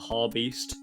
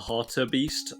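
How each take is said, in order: First: The word is said with two syllables. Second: The word is said with three syllables. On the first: The speaker calls it wrong. "I call it like the Harbeast" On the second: The speaker calls it right. "it's actually called the Hartebeest"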